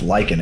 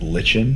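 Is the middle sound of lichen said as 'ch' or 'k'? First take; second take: k; ch. First: The middle sound is a hard 'k'. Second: The middle sound is 'ch' as in church. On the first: The speaker calls it right. "now that it's pronounced lichen" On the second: The speaker calls it wrong. "because I mean C H"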